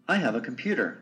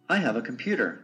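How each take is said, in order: Both takes have the same delivery.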